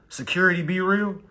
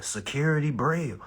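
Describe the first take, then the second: First: "be real" split into two clear words; corrected username. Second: "Brill" run together as one word; misread username. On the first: Streamer correcting a viewer's username, "be real" as two words. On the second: Streamer reading a viewer's username, "Brill" as one word. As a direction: read "Brill" as a single syllable. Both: Real, not acted.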